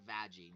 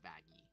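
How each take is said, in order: First: The name is said with its original pronunciation. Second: The name is said with its new pronunciation. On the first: This is the name the creator gave her. "named her Vaggie" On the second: This is her changed name. "the new pronunciation"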